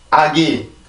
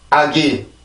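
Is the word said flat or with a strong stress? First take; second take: flat; flat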